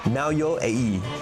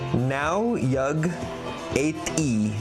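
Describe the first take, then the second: First: No G sound is heard mid-word. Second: A hard G sound is heard mid-word. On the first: The speaker calls it right. "you don't pronounce the G either" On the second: The speaker calls it wrong. "That sounds like Latin"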